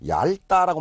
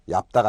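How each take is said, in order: First: The first syllable ends in an l sound. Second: The first syllable ends in a p sound. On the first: The speaker calls it right. "원칙은 ... 앞쪽으로 갑니다" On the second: The speaker calls it wrong. "얇다가 아니라"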